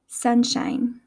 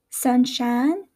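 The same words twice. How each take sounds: First: "sunshine" with a full "eye" glide in shine; Midwestern pronunciation. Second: "sunshine" with a flattened "ah" in shine; Southern pronunciation. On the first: Teacher contrasting accents, "sunshine" said Midwestern as "sun-shyne". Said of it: "in my Midwestern accent". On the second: Teacher contrasting accents, "sunshine" said Southern as "sun-shahn". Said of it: "in the Southern accent". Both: Shown as a demonstration.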